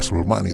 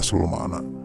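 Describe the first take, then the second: First: The last word ends in an 'i' sound. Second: The last word ends in an 'a' sound. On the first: The speaker calls it wrong. "Tidak dibaca aslul makni" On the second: The speaker calls it right. "tetapi dibacanya aslul makna"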